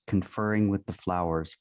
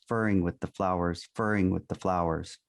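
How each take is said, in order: First: Said in the usual way. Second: Furring with the flowers, repeated like a stuck needle; "furring" clipped where the record skips, said twice the same; skipping record. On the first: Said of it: "Ray Bolger sang". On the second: Retold or imitated. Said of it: "Only when I placed a finger on the stylus".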